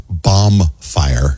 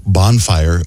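First: Slow "bomb fire" with M, two words; misheard word. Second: "bonfire" with N ending the first syllable; correct word. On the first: Host shows people's mistake, drawn-out "bomb fire" with M. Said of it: "always thought it was". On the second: Host gives the real word, slow "bonfire" with N. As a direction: say "bonfire" slowly, bon with an N. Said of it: "instead of saying". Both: Shown as a demonstration.

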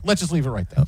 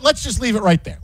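First: "Let's just leave it right there" repeated lower and softer, under the breath; softer aside. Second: Said in the usual way. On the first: Real, not acted. Host cutting off his own tangent to co-host, softer and lower. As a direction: drop it down to a muttered aside.

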